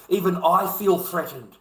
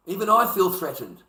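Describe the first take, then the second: First: "feel" hit hardest, falling at the end; stress on feel. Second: "I" hit hardest, falling at the end; stress on I. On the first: Man ranting about daggers, leaning on "feel". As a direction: lean on "feel" in "Even I feel threatened". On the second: Man ranting about daggers, now leaning on "I". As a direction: lean on "I" in "Even I feel threatened". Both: Real, not acted.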